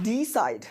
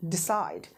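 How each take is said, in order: First: Decide said as D side, heavy long DEE; wrong word stress. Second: Decide stressed on -CIDE; short weak de, long falling CIDE in decide; correct word stress. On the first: Teacher showing what is not decide, D side stressed on D. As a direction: hit the first syllable hard, D side. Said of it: "This is not D side". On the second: Teacher showing the correct decide, stressed on the second syllable. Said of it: "this is decide". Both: Shown as a demonstration.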